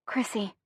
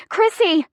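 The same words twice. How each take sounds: First: Tentative call. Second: High, urgent cry; screamed name. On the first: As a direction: call the name softly, under your breath. First, soft call before the scream. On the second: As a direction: call out the name in alarm, pitched way up. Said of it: "I scream". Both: A narrator's reading.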